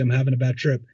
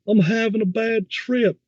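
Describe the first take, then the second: First: Said in the usual way. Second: High-pitched, stretched-out taunting echo; mocking mimic. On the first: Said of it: "am I talking like that?". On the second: Friend parroting a man's bad trip plea, mocking. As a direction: parrot it back slowly, way up high, accent put on. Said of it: "mimicking me and adding a little accent to it".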